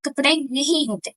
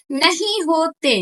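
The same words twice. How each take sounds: First: Said in the usual way. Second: "नहीं होते" slow and stretched; emphatic repeat. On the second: Real, not acted. Vlogger insisting girls have no clothes, slow stress on "नहीं होते". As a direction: spell out "नहीं होते" slowly, word by word.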